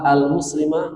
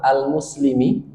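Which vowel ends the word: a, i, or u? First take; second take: a; i. First: The word ends with an a vowel. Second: The word ends with an i vowel. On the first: "atau dibaca jaa al-muslima, nggak akan bisa" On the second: "tidak akan bisa dibaca jaa al-muslimi kasroh, nggak bisa"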